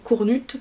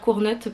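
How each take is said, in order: First: The name is said with French pronunciation. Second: The name is said with English pronunciation. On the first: The author is French-speaking. "ça doit sûrement se prononcer à la francophone" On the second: The speaker is an English speaker. "parce que je suis anglophone"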